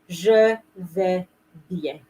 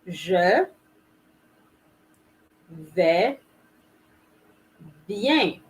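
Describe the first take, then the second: First: The phrase is said at normal speed. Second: The phrase is said more slowly.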